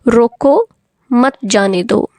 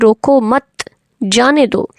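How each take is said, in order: First: There is a pause after 'roko'. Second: There is a pause after 'mat'.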